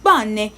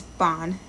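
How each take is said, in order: First: "bonne" as two syllables, "bon-neh"; final E pronounced. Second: "bon" as one syllable ending on N; silent final E. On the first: Learner showing their old mistake, final E voiced. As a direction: sound the last E of "bonne". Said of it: "I've been pronouncing them wrong". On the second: Learner correcting themself, final E silent. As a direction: end "bon" on the N, no vowel after. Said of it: "is usually silent". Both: Shown as a demonstration.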